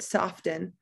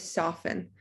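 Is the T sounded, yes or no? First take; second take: yes; no. First: The T in the middle is sounded. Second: The T in the middle is silent. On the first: The speaker calls it wrong. "We don't say it soften" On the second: The speaker calls it right. "We say soften, so that T is silent"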